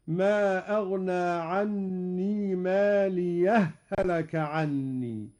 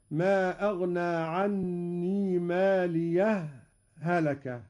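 First: ماليه هلك run together, ha doubled; merged ha's. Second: Slow ماليه, a clear stop before هلك; pause between ha's. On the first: Teacher demonstrating assimilation: ماليه blended into هلك. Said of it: "وهذا هو الإدغام". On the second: Teacher demonstrating the pause: ماليه then a stop before هلك. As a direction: hold a brief silent break after ماليه. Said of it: "هذا هو السكت". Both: Shown as a demonstration.

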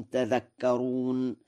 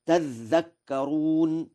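First: Said in the usual way. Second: Slow "تذكرون" with a lengthened dh; doubled dhal. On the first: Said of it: "قوله تعالى". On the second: Shown as a demonstration. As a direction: say "تذكرون" as tadhdhakkaroon. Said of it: "بتشديد الذال".

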